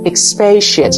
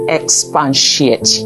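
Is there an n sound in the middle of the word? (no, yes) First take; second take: no; yes. First: No n sound is added in the middle. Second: An n sound is added in the middle. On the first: The speaker calls it right. "You should say expatiate" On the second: The speaker calls it wrong. "Where did we get the N from?"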